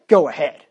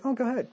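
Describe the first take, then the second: First: "Go ahead." said loud and flat as a warning; a firm "Go ahead." that really means no; stern go ahead. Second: "Oh, go ahead." higher and softer, easy-going; a lighter, higher "Oh, go ahead." that really means yes; permissive go ahead. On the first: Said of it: "he knows that means, "No, you better not". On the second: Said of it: "mean two totally different things by the tonation". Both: Shown as a demonstration.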